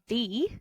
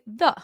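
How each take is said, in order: First: The vowel is full and clear. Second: The vowel is a weak schwa. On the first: "instead of saying" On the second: "we say the, and that's a schwa"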